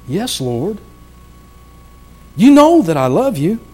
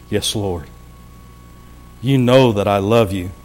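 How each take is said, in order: First: Higher, strained plea; the word "know" lifted high with hurt; pleading Peter. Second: Humble Peter. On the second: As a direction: answer meekly, almost under the breath. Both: Acted. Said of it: "with a little emphasis here in the way I think Peter was responding".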